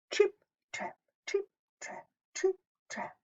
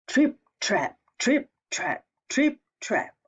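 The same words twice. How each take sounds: First: High tiptoeing whisper, fading softer; whispered trip trap. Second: Heavy, louder stomping beat; stomping trip trap. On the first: Teacher whispering the middle goat's hoofsteps to the children. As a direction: tiptoe the words over the bridge. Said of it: "hooves tiptoe over bridge". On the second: Teacher stomping the biggest goat's hoofsteps, loud. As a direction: stamp each step like a big goat. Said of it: "biggest goat stomps". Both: A narrator's reading.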